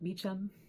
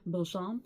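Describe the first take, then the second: First: The name is said like English 'Beecham'. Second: The name is said with a French-style sound. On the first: "in English they pronounce it more like Beecham" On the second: "it's spelled in a French way"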